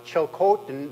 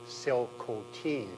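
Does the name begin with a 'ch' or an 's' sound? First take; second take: ch; s. First: The name begins with a 'ch' sound. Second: The name begins with an 's' sound. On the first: The speaker calls it wrong. "that's the way I pronounced that ever since the trial judge came down" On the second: The speaker calls it right. "the correct pronunciation is actually Silcotin"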